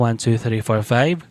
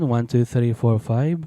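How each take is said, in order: First: The sound is hollow with boosted middle frequencies. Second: The sound is dull with reduced high frequencies. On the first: "boxy yung ating audio" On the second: "naging muffled"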